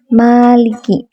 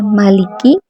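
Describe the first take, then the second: First: The first vowel is long. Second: The first vowel is short.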